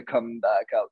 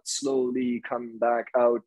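First: Said in the usual way. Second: Slow. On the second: Shown as a demonstration.

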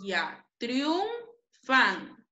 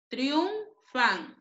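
First: Triunfan split slowly into syllables. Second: Said in the usual way. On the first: Shown as a demonstration. Teacher modeling triunfan for the class, slowly syllabified. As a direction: draw out triunfan, tapping each syllable. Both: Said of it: "Dos vocales cerradas diferentes van juntas".

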